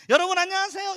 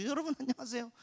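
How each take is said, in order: First: High, loud bright greeting despite the pain; forced cheerful greeting. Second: Said in the usual way. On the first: Retold or imitated. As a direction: put on a cheerful face for the kids. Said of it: "이렇게 하면서". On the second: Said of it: "와서".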